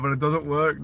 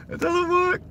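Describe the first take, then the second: First: Said in the usual way. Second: High, frustrated squeak; exasperated high whine. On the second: Real, not acted. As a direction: whine it at the broken mount. Phone mount keeps failing.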